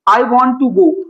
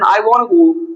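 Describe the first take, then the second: First: The word 'to' is said in full. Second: The word 'to' is left out entirely.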